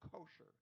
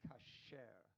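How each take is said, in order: First: The stress is on the first syllable. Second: The stress is on the second syllable. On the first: It is the English form of the word. "the same word in English is accented on the first syllable" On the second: It is the Hebrew form of the word. "in Hebrew, we usually accent the second or third syllable"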